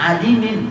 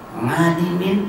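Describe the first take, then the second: First: The word begins directly with a vowel. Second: The word begins with an 'ng' sound. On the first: This is how it should actually be read. The speaker calls it right. "padahal adimin" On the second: The reader's accent changes the original sound. The speaker calls it wrong. "tapi ngadimin"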